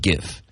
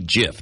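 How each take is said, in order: First: The word begins with a hard G sound. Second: The word begins with a J sound. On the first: The speaker calls it wrong. "not GIF" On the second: The speaker calls it right. "It's supposed to be GIF"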